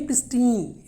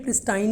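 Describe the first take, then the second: First: प्रिस्टीन with a long "ee" in the last syllable; correct pronunciation demo. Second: प्रिस्टाइन with a long "eye" in the last syllable; mispronunciation demo. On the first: Teacher modelling the word for learners, clear "-teen" ending. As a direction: say प्रिस्टीन to rhyme with "seen". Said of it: "इसकी pronunciation". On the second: Teacher warning learners off a wrong pronunciation, "-tine" ending. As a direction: say प्रिस्टाइन to rhyme with "fine". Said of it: "प्रिस्टाइन नहीं है". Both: Shown as a demonstration.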